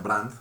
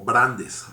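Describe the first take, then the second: First: The name is one syllable ending in 't'. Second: The name ends with a full 'es' syllable. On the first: This is how the name is usually said. "pero se pronuncia Brandt" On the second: This is how the name is actually written. "es como Brandes realmente"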